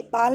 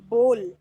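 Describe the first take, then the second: First: "बाल" with an aa vowel; wrong vowel. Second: "बोल" with a rounded o, said firmly; correct o vowel. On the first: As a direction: mispronounce ball as "बाल". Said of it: "बाल नहीं बोलेंगे". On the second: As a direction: say ball as "बोल", louder. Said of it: "इसको हम बोलेंगे". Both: Shown as a demonstration.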